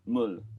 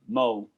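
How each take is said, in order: First: The word ends with a clear L sound. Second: The final L is dropped, ending in a vowel. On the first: The speaker calls it right. "water in in in Korean is mul" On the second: The speaker calls it wrong. "he's got a South London accent, so it comes out like mo"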